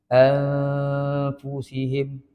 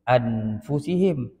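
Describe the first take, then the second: First: A hidden, nasal n blends into the f. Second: A full, clear n sound comes before f. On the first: The speaker calls it right. "Ini bukan ab, bukan an" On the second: The speaker calls it wrong. "Kalau bunyi nun betul"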